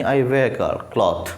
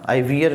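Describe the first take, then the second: First: Wear said "weh-r", very slowly; I wear cloth, drawn out carefully; slow correct reading. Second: Wear said "vee-ur", rising; I wear with an "ee" vowel; wrong pronunciation. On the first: Teacher slowly models the correct I wear cloth. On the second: Teacher shows a common wrong reading of wear. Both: Shown as a demonstration. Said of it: "नहीं".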